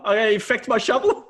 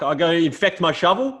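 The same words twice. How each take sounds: First: Much higher rising disbelief, voice pushed up; more incredulous. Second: Higher rising disbelief; incredulous old man. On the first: Old farmer repeats the shovel line, more outraged. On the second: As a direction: ask it as if it's absurd. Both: Retold or imitated. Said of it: "He goes".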